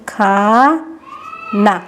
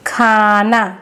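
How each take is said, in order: First: Very slow, stretched word; slow teaching demo; slow sounding out. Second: Said in the usual way. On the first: Shown as a demonstration. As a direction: draw it out to show the spelling. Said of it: "तो कैसे लिखेंगे?". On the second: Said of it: "जैसे ये क्या है?".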